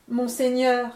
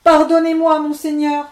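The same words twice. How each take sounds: First: Said in the usual way. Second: Higher, louder tearful begging; weeping plea. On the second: Acted. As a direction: beg through mock tears. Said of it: "dit-il en pleurant".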